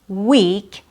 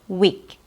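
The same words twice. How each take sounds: First: The E vowel is held long. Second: The E vowel is cut short. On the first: The speaker calls it right. "which has a long E sound" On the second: The speaker calls it wrong. "A mispronunciation would be making it too short"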